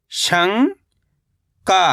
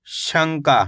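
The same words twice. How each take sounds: First: शंका as long rising "shang", pause, "kaa"; split syllables. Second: Said in the usual way. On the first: Shown as a demonstration. Teacher breaking down शंका for learners, split syllables. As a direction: stretch शंका into two separate syllables. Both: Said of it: "कैसे पढ़ेंगे?".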